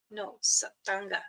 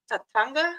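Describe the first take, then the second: First: "satanga" said clearly as sa-TAN-ga; mom's correct pronunciation. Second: "Satanga?" said with a questioning rise, first syllable dropped; "Satanga?" as a puzzled kid asks it; kids' questioning pronunciation. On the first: Shown as a demonstration. Mother teaching her kids the name, clear correction. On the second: Retold or imitated. Children trying out the new word, asking.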